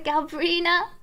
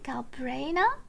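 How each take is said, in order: First: The name ends with an 'ee-na' sound. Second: The name ends with an 'eye-na' sound. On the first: The speaker calls it wrong. "not Galbrina" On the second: The speaker calls it right. "Apparently it's Galbraina"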